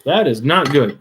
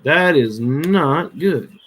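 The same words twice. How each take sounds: First: Said in the usual way. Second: Slow, with "not" drawn out long; emphatic NOT. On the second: Real, not acted. Repeats it slowly for emphasis.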